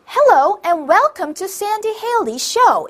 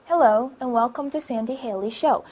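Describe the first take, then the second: First: It is read loudly in a bright voice. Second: It is read in a plain, flat voice.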